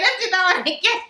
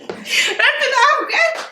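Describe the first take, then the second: First: Said in the usual way. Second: Laughing, higher, through giggles. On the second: Real, not acted. Restarting the take for the camera, laughing. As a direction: crack up while restarting the take. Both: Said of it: "let's start again".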